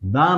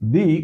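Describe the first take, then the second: First: The word ends in a short 'uh' vowel. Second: The word ends in a long 'ee' vowel. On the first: The speaker calls it wrong. "দা নয়" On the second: The speaker calls it right. "উচ্চারণ হবে ... দি"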